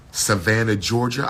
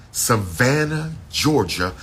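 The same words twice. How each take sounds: First: Said in the usual way. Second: Drawn-out Savannah. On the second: Real, not acted. Promoting the ball to followers, slow drawn-out Savannah. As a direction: draw out Savannah like a hype call. Repeating the event city, stretched.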